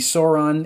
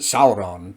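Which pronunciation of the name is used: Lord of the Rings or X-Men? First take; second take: X-Men; Lord of the Rings. First: The name is said the X-Men way. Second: The name is said the Lord of the Rings way. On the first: "that's how the name is pronounced in the X Men universe" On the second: "If we were in Lord of the Rings era Middle Earth, I would pronounce it"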